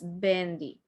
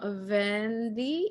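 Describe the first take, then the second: First: The word begins with a soft two-lip B sound. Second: The word begins with a buzzing lip-teeth V sound. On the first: The speaker calls it right. "in Spanish, they both sound like B" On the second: The speaker calls it wrong. "So it's not vendi"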